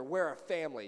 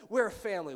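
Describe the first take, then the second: First: Said in the usual way. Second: Emphatic motto. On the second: Shown as a demonstration. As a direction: punch "We're a family" out louder. Repeated family motto, louder take.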